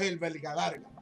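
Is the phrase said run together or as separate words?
run together. The words run together smoothly like a name. It is heard as a first and last name. The speaker calls it right. "Si lo decimos corrido"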